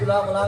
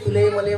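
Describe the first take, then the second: First: The pronouns end with an 'a' sound. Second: The pronouns end with an 'e' sound. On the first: This is the Pune way of speaking. "मग कशाला उगीच तुला मला घाल फिरायला" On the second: This is the local way of speaking. "आपल्या इकडे मला माहीत आहे तुम्हाला समजते"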